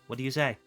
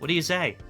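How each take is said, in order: First: It is said quietly and solemnly. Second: It is said loudly and cheerfully.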